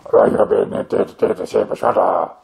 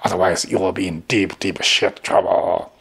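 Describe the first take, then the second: First: Badly recorded echo-room voice; echoey room voice. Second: Said in the usual way. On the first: Shown as a demonstration. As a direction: sound like you're talking in a bare echoing room. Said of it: "But with this voice, like". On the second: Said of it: "They appear to be so professional".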